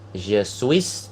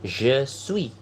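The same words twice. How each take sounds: First: The final s of suis is pronounced. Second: The final s of suis is silent. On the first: The speaker calls it wrong. "bukan je suis" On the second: The speaker calls it right. "tapi je suis"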